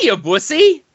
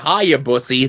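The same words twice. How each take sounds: First: It is said in an exaggerated put-on character voice. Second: It is said in a plain, ordinary speaking voice. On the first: The speaker calls it right. "I got to do it like I'm Mister Captain Frank" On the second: The speaker calls it wrong. "You didn't give it the inflection that you usually do"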